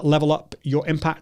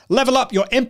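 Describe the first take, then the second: First: It is spoken quietly with very low energy. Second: It is spoken loudly with high energy. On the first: It suits talking to one person in a quiet place. "that's me, really low energy" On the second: It suits addressing a workshop audience. "I would obviously have to raise the level even more"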